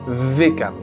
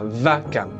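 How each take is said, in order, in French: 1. La première voyelle se prononce comme 'e'. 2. La première voyelle se prononce comme 'a'. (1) "le sheva qui donne le son et" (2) "qui donne le son à vakam"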